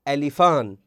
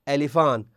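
The two takes are said the same way.

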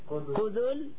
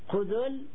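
First: The middle consonant is followed by a short u. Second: The middle consonant is followed by no vowel. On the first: "يجوز ضمها" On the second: "ويجوز تسكينها"

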